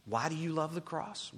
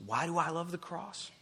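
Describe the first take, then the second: First: Said in the usual way. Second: "I" picked out as the strongest word; stress on I. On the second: Real, not acted. Preacher asking himself after asking listeners, stress on "I". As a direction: turn the question on yourself, leaning on "I". Question turned from you to himself.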